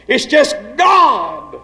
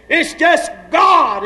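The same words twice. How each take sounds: First: Slow, ringing shouted declaration. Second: Slow, higher shouted proclamation. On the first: Preacher shouting to congregation, slow and strong. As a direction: shout it out to the pews. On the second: Preacher crying out to his church, higher and slow. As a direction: lift it up and cry it out. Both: Acted.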